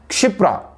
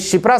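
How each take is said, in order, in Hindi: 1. यह शब्द 'ksh' ध्वनि से शुरू होता है। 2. यह शब्द सादी 'sh' ध्वनि से शुरू होता है। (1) "सही क्या होता है उच्चारण" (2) "ये शिप्रा सही नहीं है"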